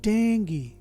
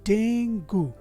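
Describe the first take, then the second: First: The word ends with an 'ee' vowel sound. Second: The word ends with an 'oo' vowel sound. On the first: The speaker calls it right. "इस शब्द का सही pronunciation है" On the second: The speaker calls it wrong. "जो इस शब्द का सही प्रोनाउंसिएशन नहीं है"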